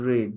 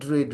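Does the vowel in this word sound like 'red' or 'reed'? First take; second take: reed; reed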